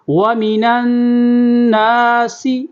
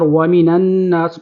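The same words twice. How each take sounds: First: النَّاسِ with a nasal ghunnah on the doubled nun and a whistling sin; tajweed demo. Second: Said in the usual way. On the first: Shown as a demonstration. Teacher demonstrates ghunnah and sin to students, drawn out. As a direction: sing النَّاسِ out with a held ghunnah. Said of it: "سین کی سیٹی کی آواز نکالیں گے". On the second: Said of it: "نون کو نون کے ساتھ ملانا ہے".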